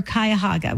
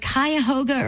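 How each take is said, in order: First: Cuyahoga with HO said like "hah"; Cuyahoga with broad A. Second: Cuyahoga with HO said like "hoe"; Cuyahoga with long O. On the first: Host offering the other version of the town, Cuyahoga with "hah". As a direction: say Cuyahoga as "kai-uh-HAH-guh". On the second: Host asking caller to settle her town's name, Cuyahoga with "hoe". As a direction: say Cuyahoga as "kai-uh-HOE-guh". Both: Shown as a demonstration. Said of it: "Which one is it?".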